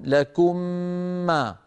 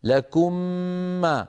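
The two takes are said the same way.

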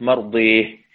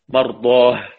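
First: The long vowel is tilted toward an e sound. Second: The long vowel is an open a sound.

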